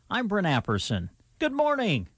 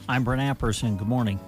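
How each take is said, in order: First: The greeting sounds cheerful and bright. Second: The greeting sounds somber and low.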